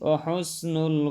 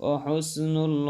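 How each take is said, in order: The two takes are said the same way.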